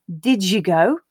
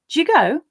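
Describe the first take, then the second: First: The word did is said as a full syllable. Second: The word did is reduced to a d sound. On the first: "instead of did you go" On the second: "the did will actually become just d"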